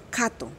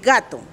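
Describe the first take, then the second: First: The word begins with a voiceless k sound. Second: The word begins with a voiced g sound. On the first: "nosotros decimos cato" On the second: "el Embera no dice gato"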